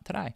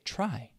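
First: The start of the word has a non-native sound. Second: The start of the word has a native-like sound. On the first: The speaker calls it wrong. "not try" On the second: The speaker calls it right. "native speakers say try"

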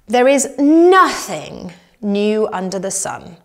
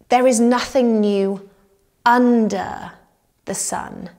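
First: The stress falls on the word nothing. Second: The stress falls on the word under.

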